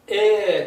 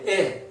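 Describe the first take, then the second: First: The vowel is held long. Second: The vowel is said very briefly. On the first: "똑같이 길게" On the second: "극히 짧게"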